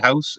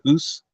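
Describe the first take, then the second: First: The word is said in a standard accent. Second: The word is said in a Scottish accent.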